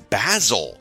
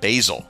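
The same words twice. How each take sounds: First: The word is pronounced the British way. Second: The word is pronounced a non-British way. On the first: The speaker calls it right. "in the UK, it's Basil" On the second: The speaker calls it wrong. "not Basil"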